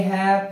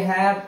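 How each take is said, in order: Both takes have the same delivery.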